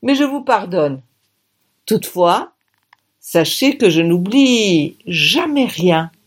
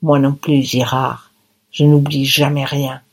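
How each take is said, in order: First: Slow, deliberate threat; menacing slow promise. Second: Low, tight, through the teeth; between clenched teeth. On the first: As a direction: hit jamais with menace. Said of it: "me dit-il". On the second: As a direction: spit it through gritted teeth. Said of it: "je lui dis entre les dents". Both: A narrator's reading.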